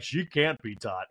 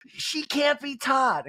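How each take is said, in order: First: Slow echo in a near-usual register; Garcelle. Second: High, drawn-out impression; Kyle. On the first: Retold or imitated. Housewife echoing her friend's verdict, slow understated impression. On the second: Housewife giving verdict on her friend, high slow impression. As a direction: stretch it out high, mimicking her.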